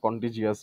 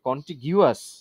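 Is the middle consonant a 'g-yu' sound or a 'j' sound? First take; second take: j; g-yu. First: The middle is said with a j sound. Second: The middle is said with a g-yu sound. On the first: "এই জন্য কন্টিজিয়াস বলছি" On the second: "না কন্টিগিউয়াস বললে আমি জীবনে এটা মনে রাখতে পারবো না"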